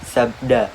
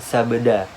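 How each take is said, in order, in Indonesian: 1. Dua konsonan di tengah langsung diucapkan bersama. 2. Sebuah vokal memisahkan dua konsonan di tengah. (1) "langsung dibunyikan sebagai sab, sabda" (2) "bukan sabda"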